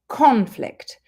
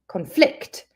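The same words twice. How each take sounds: First: The stress is on the first syllable. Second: The stress is on the second syllable. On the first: It is used as a noun. "If we put the stress on the first syllable, it's the noun" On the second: It is used as a verb. "If we put the stress on the second syllable, then it's the verb"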